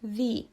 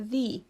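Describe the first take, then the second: First: The vowel is a long 'ee' sound. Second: The same.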